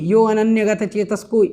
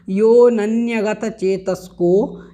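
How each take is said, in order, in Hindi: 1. 'yo' के बाद एक अलग 'a' स्वर बोला जाता है। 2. 'yo' के बाद कोई 'a' स्वर नहीं बोला जाता है। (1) "ऐसा नहीं बोलना है" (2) "इस प्रकार से इसका आपको उच्चारण करना है"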